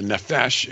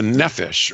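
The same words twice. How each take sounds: First: The stress is on the last syllable. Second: The stress is on the first syllable.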